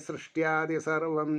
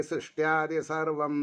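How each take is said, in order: Both takes have the same delivery.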